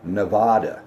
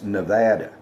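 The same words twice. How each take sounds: First: It uses the vowel sounds outsiders use. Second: It uses the vowel sounds local people use. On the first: The speaker has never lived in the West. The speaker calls it wrong. "you can always tell somebody who's never lived in the West because... they'll call it Nevada" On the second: This is how people from the region say it. The speaker calls it right. "It's Nevada"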